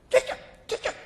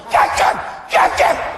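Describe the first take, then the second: First: It is said quietly and weakly. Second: It is said loudly and strongly.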